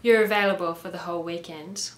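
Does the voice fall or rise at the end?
fall. The voice does not rise at the end. It sounds like a statement, not a question. The speaker calls it wrong. "It doesn't work if you don't raise your voice at the end"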